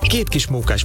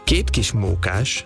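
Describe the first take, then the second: First: The phrase is said at a fast pace. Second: The phrase is said at a slow pace. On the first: "egyszer gyorsan"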